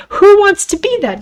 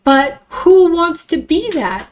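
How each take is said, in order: First: Emphatic question. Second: Said in the usual way. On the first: Real, not acted. Repeated, louder and higher.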